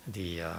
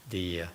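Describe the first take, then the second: No difference in how they are said.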